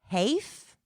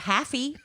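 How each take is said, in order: First: The first vowel is a long A. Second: The first vowel is a short A. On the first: "with an E on the end, that would make it a long A" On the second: "It's either that or Haffy"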